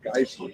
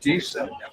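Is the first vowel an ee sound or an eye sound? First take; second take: eye; ee. First: The first vowel is an eye sound. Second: The first vowel is a long ee sound. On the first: The speaker calls it wrong. "the new Americans would come over and they call it Geissen" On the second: The speaker calls it right. "I lived in Gießen"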